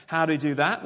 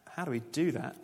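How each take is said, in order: First: Louder, rising rhetorical question; emphatic question. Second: Said in the usual way. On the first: Shown as a demonstration. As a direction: throw the question out to the room with a rising end.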